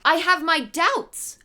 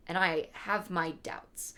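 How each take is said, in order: First: I have my doubts high, slow, loud, rising; stressed doubts. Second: Said in the usual way. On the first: Acted. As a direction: drag out I have my doubts with a higher lift. Repeat of line 49.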